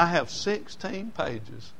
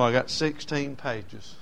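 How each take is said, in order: First: Sixteen pages said slowly; slow, stressed retelling. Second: Sixteen pages drawn out; slow first telling. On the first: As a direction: lean on sixteen pages, unhurried. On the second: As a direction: say it slowly, plainly. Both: Retold or imitated. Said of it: "He said".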